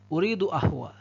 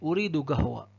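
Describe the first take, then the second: First: The word starts with a glottal stop. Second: The word starts with a hard g sound. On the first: "Tapi kalau Mesir, qaf itu menjadi alif" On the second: "Itu kalau Saudi"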